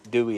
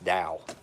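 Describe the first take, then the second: First: The name is said like 'dewy', two syllables. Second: The name is said like 'dow', one syllable. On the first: The speaker calls it wrong. "I used to call it Dewey" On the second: The speaker calls it right. "they told me how to pronounce it. It's, it's Dow"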